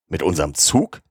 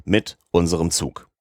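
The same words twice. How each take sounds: First: Rising question on "Zug". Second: Falling, settled tone on "Zug"; firm confirmation. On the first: Colonel questions the machinist's plan, questioning lift on "Zug". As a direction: ask back with "Zug" lifted at the end. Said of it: "fragte der Oberst". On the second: Machinist answers the colonel's question, firm falling "Zug". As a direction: state it firmly, "Zug" dropping at the end. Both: A narrator's reading.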